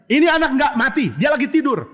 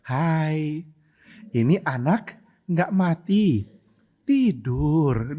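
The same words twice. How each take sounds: First: High, raised-voice announcement; forceful, not gentle. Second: Slow, mock-gentle delivery; nice and gentle. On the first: Acted. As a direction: call it out over a noisy crowd. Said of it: "Nggak mungkin Tuhan Yesus ngomongnya baik-baik". (berseru lantang, nada tinggi) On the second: Shown as a demonstration. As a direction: say it sweetly, stretching each word. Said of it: "ngomongnya baik-baik". (baik-baik, pelan mendayu)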